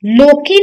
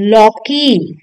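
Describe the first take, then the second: First: लोकी with a closed o; wrong o vowel. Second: लौकी with an open au; correct au vowel. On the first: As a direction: say लोकी as "lokee". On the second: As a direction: say लौकी as "laukee". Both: Shown as a demonstration. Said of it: "लोकी नहीं".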